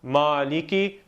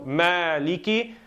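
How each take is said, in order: First: The first vowel is not like 'a' in 'man'. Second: The first vowel is like 'a' in 'man'. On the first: The speaker calls it wrong. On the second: The speaker calls it right. "fatha, generally speaking, is a sound of a as in man"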